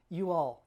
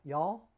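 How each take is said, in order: First: Said in the usual way. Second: "y'all" squeezed into one syllable, rising like a question; unsure Southern "y'all" with a lift at the end; trying out y'all. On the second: Shown as a demonstration. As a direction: test "y'all" as a single syllable with a questioning rise. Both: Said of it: "we don't say y'all".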